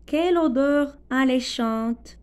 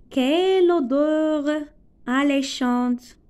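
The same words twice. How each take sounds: First: Said in the usual way. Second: Exclamation. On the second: Shown as a demonstration. Teacher modelling an exclamation about a smell, slow. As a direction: savour it, stretching "Quelle odeur alléchante". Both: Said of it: "c'est une phrase exclamative".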